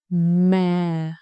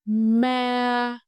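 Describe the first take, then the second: First: The pitch goes down and stays low. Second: The pitch stays high and level throughout. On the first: "You just go down and stay low" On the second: "Keep your voice high and level"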